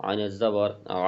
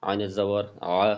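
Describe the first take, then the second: The two takes are said the same way.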